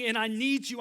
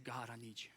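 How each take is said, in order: First: Crying out. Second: "God, I need you" dropped low and much softer; hushed, intimate confession; soft plea. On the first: Acted. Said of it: "crying out to God". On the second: Shown as a demonstration. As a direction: breathe the plea almost to yourself. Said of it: "this constant state of".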